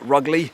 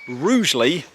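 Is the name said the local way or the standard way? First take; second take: local; standard. First: The name is said in the local pronunciation. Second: The name is said in the standard pronunciation. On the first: This is how people who live there say it. "the locals call it Rugley" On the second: This is the official pronunciation of the name. "it's actually pronounced Rugeley"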